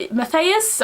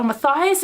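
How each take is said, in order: First: Matthias said ma-THAY-us with a questioning rise; Matthias tested as ma-THAY-us, unsure; unsure pronunciation. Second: Matthias said ma-THIGH-us; Matthias with a long "eye" sound, ma-THIGH-us; Matthias corrected to ma-THIGH-us; settled pronunciation. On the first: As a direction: try Matthias as ma-THAY-us, asking. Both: Shown as a demonstration. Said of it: "is how you say his name".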